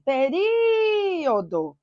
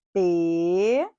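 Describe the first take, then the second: First: "Período" called high with RI held very long; calling out. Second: "Período" split into PE, RI, O, DO with pauses; slow, lower, separated syllables in "Período". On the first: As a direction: stretch the RI of "Período" like a call. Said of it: "A sílaba que se alonga". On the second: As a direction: say "Período" one drawn-out syllable at a time. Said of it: "como que eu separo?". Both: Shown as a demonstration.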